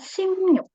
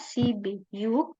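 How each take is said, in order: First: The middle consonant is an m sound. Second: The middle consonant is a b sound. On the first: This is how it is actually read. The speaker calls it right. "bacanya Simyuk" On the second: This is how it is written. The speaker calls it wrong. "tulisannya Sibiyuk"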